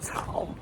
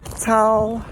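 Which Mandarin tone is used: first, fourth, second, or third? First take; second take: third; first. First: It is said in the third tone. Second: It is said in the first tone. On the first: "first through fourth tone" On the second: "first through fourth tone"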